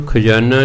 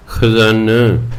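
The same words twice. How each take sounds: First: ਖਜ਼ਾਨਾ said with a plain j sound, khajana; the wrong ਖਜ਼ਾਨਾ, with j in place of z; wrong pronunciation. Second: ਖਜ਼ਾਨਾ said slowly with a clear z sound, khazana; ਖਜ਼ਾਨਾ drawn out, z stressed; correct pronunciation. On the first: Preacher showing the congregation the mistaken ਖਜ਼ਾਨਾ with a j sound. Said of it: "ਇਹਨੂੰ ਖਜ਼ਾਨਾ ਨਹੀਂ ਕਹਿਣਾ". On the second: Preacher teaching the congregation the right ਖਜ਼ਾਨਾ with a z sound. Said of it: "ਜੱਜੇ ਦੇ ਪੈਰ 'ਚ ਬਿੰਦੀ ਲਾ ਕੇ". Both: Shown as a demonstration.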